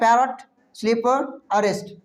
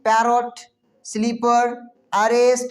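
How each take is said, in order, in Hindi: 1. स्वर छोटे और जल्दी बोले जाते हैं। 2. स्वर लंबे और धीरे खिंचते हैं। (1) "इसको पढ़ना है पैरट स्लीपर अरेस्ट, यानी तुरंत पढ़ देना है" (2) "ऐसा नहीं कि पैरट स्लीपर अरेस्ट, ऐसे नहीं पढ़ना है"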